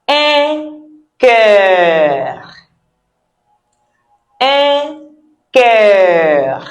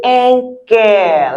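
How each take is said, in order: First: "cœur" drawn out with a rounded vowel and throat r; throaty French cœur. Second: "cœur" pronounced like English care; anglicized cœur. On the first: Teacher modelling the French way, drawn-out "cœur". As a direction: hold "cœur" long, ending in the throat. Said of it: "the way I say it". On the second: Teacher offering easier way, "cœur" like care. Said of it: "like I care for you". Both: Shown as a demonstration.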